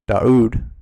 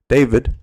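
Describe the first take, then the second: First: The middle sound is a U. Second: The middle sound is a V.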